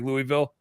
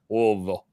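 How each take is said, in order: First: The name is said quickly, as it is spelled. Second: The name is said slowly, in a lazy drawl. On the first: This is how an outsider reads the name. The speaker calls it wrong. "I always want to say Louisville because it looks like Louisville" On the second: This is how the locals say the name. The speaker calls it right. "they say it like they're like on Percocet ... let's drag it out"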